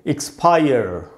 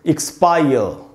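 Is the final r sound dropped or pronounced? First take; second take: pronounced; dropped. First: The final r sound is pronounced. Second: The final r sound is dropped. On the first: "American English में ... जीभ को ऐसे मोड़ लेना चाहिए और बोलना चाहिए" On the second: "British English में ये होगा एक्सपायर, र नहीं पढ़ेंगे"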